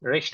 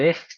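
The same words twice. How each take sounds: First: The consonant before t sounds like sh. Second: The consonant before t sounds like harsh kh. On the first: "শয়ের মতো উচ্চারণ করে" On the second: "একটু ক্ষয়ের মতো উচ্চারণ করে"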